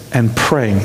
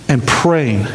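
The two takes are said the same way.

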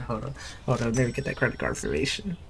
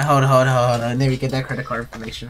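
First: Much softer, lower and quick; under the breath. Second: Said in the usual way. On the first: Real, not acted. Cashier asking customer for credit card information, under the breath. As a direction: say it almost to yourself.

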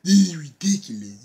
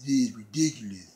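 First: Hammed-up indignant yell on "This is ridiculous", sharp and strained; imitating an outraged wrestler, first cry louder; mock angry outburst. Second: Said in the usual way. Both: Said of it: "Lashley comes out like".

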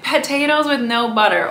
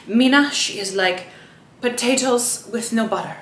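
First: Said in the usual way. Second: "potatoes with no butter" in a light attempted Kenyan accent, vowels shifted; admittedly bad imitation of a Kenyan accent on "potatoes with no butter". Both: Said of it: "Sorry, I can't do a Kenyan accent".

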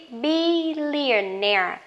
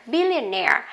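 First: Billionaire stretched slowly, stress on -naire; slow model word. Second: Billionaire said quickly, stress on -naire; normal speed word. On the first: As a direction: draw out billionaire for the class. (đọc chậm billionaire) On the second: (đọc Billionaire nhanh, tự nhiên) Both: Shown as a demonstration. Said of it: "Billionaire có nghĩa là tỷ phú".

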